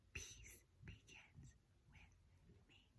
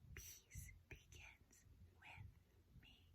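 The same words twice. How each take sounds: First: It is whispered. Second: The same.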